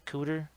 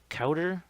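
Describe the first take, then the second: First: The first vowel sounds like in coot. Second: The first vowel sounds like in cow. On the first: The speaker calls it wrong. "not a cooter" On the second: The speaker calls it right. "It's a it's a cowder"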